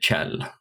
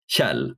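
First: It begins with an English ch sound. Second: It begins with a sound not found in English. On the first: "pronounce the KJ as you would in English pronounce a TCH" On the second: "that sound doesn't exist in English"

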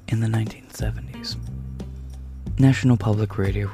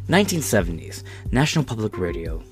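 First: It is said in an NPR announcer voice. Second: It is said in his normal voice.

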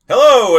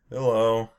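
First: It is said with very high energy. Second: It is said with low, subdued energy.

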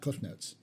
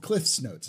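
First: Cliff ends without an s sound. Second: Cliff ends with an s sound. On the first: The speaker calls it wrong. "It's not Cliff Notes" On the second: The speaker calls it right. "It's called Cliff's Notes"

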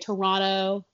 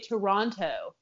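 First: The second T is dropped, sounding like Toronno. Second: The second T is clearly pronounced. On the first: The speaker calls it right. "we said it right" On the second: The speaker calls it wrong. "don't enunciate the T"

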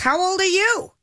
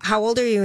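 First: It is asked back with a sassy attitude. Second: It is asked as a plain, neutral question.

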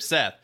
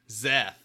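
First: The name begins with an S sound. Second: The name begins with a Z sound. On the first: The speaker calls it right. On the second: The speaker calls it wrong.

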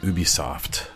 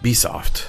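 First: The opening U sound is pronounced. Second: The opening U sound is left out.

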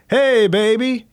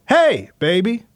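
First: "Hey" is said plainly, without exclamation. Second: "Hey" is exclaimed loudly and emphatically.

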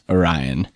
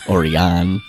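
First: It is pronounced like the constellation's name. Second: It is pronounced unlike the constellation's name. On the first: The speaker calls it right. "in fact, Orion, like the constellation, like the Greek myth" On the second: The speaker calls it wrong. "not Orion"

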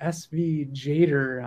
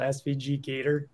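First: Only S-V is spelled, then 'jader'. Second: The letter G is spoken, then 'gator'. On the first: The speaker calls it right. "I keep hearing SV Jader on their YouTubes" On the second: The speaker calls it wrong. "I call it SVG Gator, which is incorrect"

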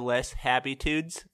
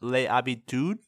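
First: The name is pronounced the American way. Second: The name is pronounced the French way.

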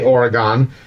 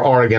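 First: It is pronounced the common outsider way. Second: It is pronounced the way locals say it.

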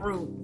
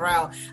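First: The word rhymes with boot. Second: The word rhymes with out. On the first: The speaker calls it wrong. "Not route, I hate when people say root" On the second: The speaker calls it right. "but route"

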